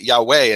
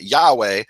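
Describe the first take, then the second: First: The stress is on the last syllable. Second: The stress is on the first syllable. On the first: It follows the Hebrew pronunciation. The speaker calls it right. "the accent is on the final syllable" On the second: It follows the Latin pronunciation. The speaker calls it wrong. "that's completely the Latin pronunciation"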